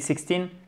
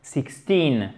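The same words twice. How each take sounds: First: The first vowel is short. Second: The first vowel is long. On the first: The speaker calls it wrong. "avec un i court, on va comprendre sixty" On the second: The speaker calls it right. "I long"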